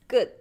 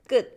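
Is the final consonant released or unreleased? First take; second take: unreleased; unreleased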